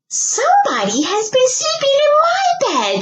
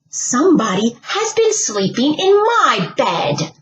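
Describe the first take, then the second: First: It is said in a shrill little voice. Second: It is said in a medium grumbling voice.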